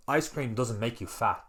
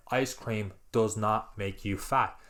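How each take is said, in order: First: Said in the usual way. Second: "does not" spelled out slowly, each word weighted; slow emphatic repeat. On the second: Shown as a demonstration. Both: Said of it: "I'm gonna say that again".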